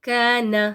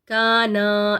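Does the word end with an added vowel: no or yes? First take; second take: no; yes. First: The word ends without an added vowel. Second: The word ends with an added long vowel. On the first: The speaker calls it right. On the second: The speaker calls it wrong.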